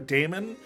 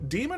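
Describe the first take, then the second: First: The first vowel sounds like 'ay'. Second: The first vowel sounds like 'ee'. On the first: "it's either da- Demon or Damon" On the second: "it's either da- Demon or Damon"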